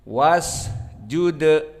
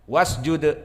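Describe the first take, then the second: First: The s is held with a brief sustained hiss. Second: The s is rushed and cut short quickly. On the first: The speaker calls it right. "Ada suara di saat disukunkan, waktu yang ada tempo" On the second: The speaker calls it wrong. "Adapun yang salah maka dicepatkan"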